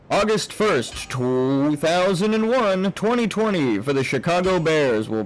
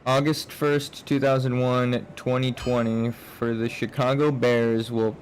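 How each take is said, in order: First: It is read in a put-on announcer voice. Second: It is read in a plain, ordinary voice.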